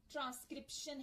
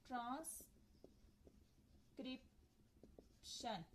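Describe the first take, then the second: First: Said in the usual way. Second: transcription very slowly in three parts, trans, क्रिप, शन; split into syllables. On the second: Shown as a demonstration. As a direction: say transcription softly, with long pauses between its three syllables. (Transcription को तीन हिस्सों में, रुक-रुक कर धीरे बोलें) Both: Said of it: "ट्राइसिलेबिक की दो".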